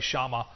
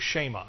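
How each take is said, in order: First: The first vowel sounds like 'ah'. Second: The first vowel sounds like 'eh'. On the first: This is how some people say it. The speaker calls it wrong. "I've heard people say Shama" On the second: This is the Hebrew pronunciation. The speaker calls it right. "But I believe you pronounce it in the Hebrew"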